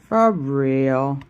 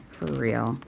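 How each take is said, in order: First: "for real" blurted much louder, hitting "for"; emphatic. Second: Said in the usual way. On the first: Shown as a demonstration. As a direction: punch out "for real" loudly. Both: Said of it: "Did you hear me?".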